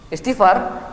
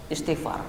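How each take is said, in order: First: "Istighfar" lifted higher, as a question; higher-pitched retold query on "Istighfar"; questioning echo. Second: "Istighfar" dropped softly as advice; matter-of-fact answer. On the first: Petitioner echoes the answer questioningly. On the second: Retold or imitated. Scholar gives terse answer in story.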